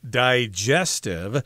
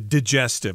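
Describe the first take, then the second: First: The first vowel is fully pronounced. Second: The first vowel is skipped over quickly. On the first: "this word is usually pronounced digestive" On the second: "when we speak fast, I think we tend to say digestive. ... we kind of skip over that I sound"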